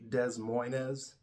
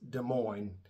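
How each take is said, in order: First: The S sounds are pronounced in both words. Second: The S sounds are silent in both words. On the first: The speaker calls it wrong. "you see the spelling of Des Moines, you're gonna say Des Moines. We don't say that here" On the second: The speaker calls it right. "The S's are silent, so it's Des Moines"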